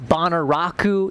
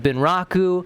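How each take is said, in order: First: It is said with four syllables. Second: It is said with three syllables. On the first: The speaker calls it wrong. "I say uh, Bonaraku in it instead of Bunraku because, again, uh, Western pronunciation" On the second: The speaker calls it right. "instead of Bunraku"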